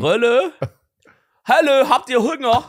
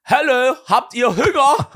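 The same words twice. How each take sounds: First: Hoch, laut und langsam, ostdeutscher Dialekt. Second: Hoch, laut und langsam, lachend gerufen, ostdeutscher Dialekt; Enten rufen. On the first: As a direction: ostdeutschen Dialekt übertrieben nachmachen. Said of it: "wie war dieser Dialekt? Von so Ostdeutsch?". (spöttisch übertriebener ostdeutscher Dialekt) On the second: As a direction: wie zu Enten rufen, übertrieben. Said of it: "ruft er die Enten so". (Mann ruft den Enten lachend im Dialekt zu) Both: Retold or imitated.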